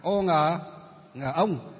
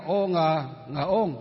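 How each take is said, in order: First: "ô ngờ, ngờ ông" spelt out the Northern way; Northern Vietnamese pronunciation. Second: "ô ngờ, ngờ ôn" spelt out the Huế way; Central Vietnamese pronunciation. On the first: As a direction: spell it out slowly, ending on Northern "ông". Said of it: "Mình thì đọc là". (đánh vần "ô ngờ, ngờ ông" theo giọng miền Bắc) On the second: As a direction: spell it out slowly, ending on Central "ôn". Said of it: "Bên kia là". (đánh vần "ô ngờ, ngờ ôn" theo giọng miền Trung) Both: Shown as a demonstration.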